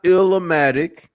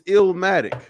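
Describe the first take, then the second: First: It has four syllables, with an extra vowel. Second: It has three syllables, with no extra vowel. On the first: The speaker calls it wrong. "it's not Illumatic" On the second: The speaker calls it right. "It's Illmatic"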